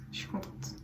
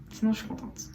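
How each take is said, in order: First: Unvoiced whisper of the same words; softly whispered echo; whispered repeat. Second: Said in the usual way. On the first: Real, not acted. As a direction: drop to a breathy whisper.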